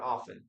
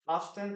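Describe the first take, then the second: First: "often" with no T, off-en; silent T. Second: "often" with a spoken T, off-ten; sounded T. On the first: Teacher contrasts two variants for learners, silent T. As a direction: leave the T out of "often". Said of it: "I prefer to say often". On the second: Teacher contrasts two variants for learners, sounded T. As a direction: pronounce the T in "often". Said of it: "you will also listen to this word as". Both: Shown as a demonstration.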